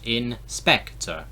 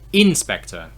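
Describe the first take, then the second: First: The stress is on the second syllable. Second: The stress is not on the second syllable. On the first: The speaker calls it right. "we emphasize the second syllable in English" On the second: The speaker calls it wrong. "If I do it the other way around, it sounds very weird"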